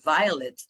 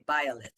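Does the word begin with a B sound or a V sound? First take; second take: V sound; B sound. First: The word begins with a v sound. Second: The word begins with a b sound. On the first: The speaker calls it right. "any word in English like violet" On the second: The speaker calls it wrong. "the V is a B sound"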